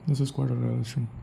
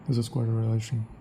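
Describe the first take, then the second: The two takes are said the same way.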